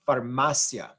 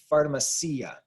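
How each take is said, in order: First: The final i and a blend into one syllable. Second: The final i and a are two separate syllables. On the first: The speaker calls it right. "The I and the A blend together to form one syllable" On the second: The speaker calls it wrong. "pharmacia is not correct"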